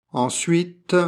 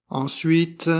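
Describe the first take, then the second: Both takes have the same delivery.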